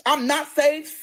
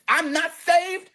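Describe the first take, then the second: First: Said in the usual way. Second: "not" dragged out and leaned on, slowly; slow down and punch "not" in "I'm not saved"; stress on not, slow. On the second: Shown as a demonstration. Repeats line, then stresses not.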